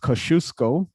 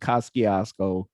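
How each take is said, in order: First: It is said in a careful, formal pronunciation. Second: It is said in a casual, local pronunciation. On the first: This is the official name. "I believe it is referred to as Kosciuszko" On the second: This is what people in the neighborhood call it.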